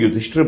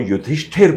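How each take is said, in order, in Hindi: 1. यह नाम ढीले तरीके से, छोटे स्वरों के साथ बोला जाता है। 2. यह नाम पूरा बोला जाता है, लंबी ई के साथ। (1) "लोग युधिष्ठिर बोलते हैं" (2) "पूरा करेक्ट प्रोनाउंसिएशन"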